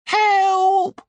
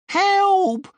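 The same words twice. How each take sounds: First: High, loud cry for help; shouted for help. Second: High, loud panicked cry; shouted for help. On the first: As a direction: yell it out, desperate. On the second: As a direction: scream for help, scared. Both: Acted. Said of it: "Sid shouted".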